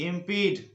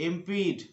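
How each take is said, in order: No difference in how they are said.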